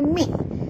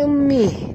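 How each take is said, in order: First: The h sound is sharp and breathy. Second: The h sound is plain and soft. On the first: The speaker calls it right. "bunyi ha pedas ya" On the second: The speaker calls it wrong. "Jangan baca mih"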